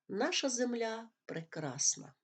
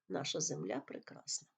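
First: It is said excitedly with raised intonation. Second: It is said calmly at normal loudness. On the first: It is an exclamation. "Окличне речення вимовляється з підвищеною інтонацією" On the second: It is a plain statement. "Воно вимовляється спокійно і звичайною силою голосу"

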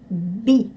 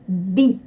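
First: The consonant stays hard before the vowel. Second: The consonant stays hard before the vowel.

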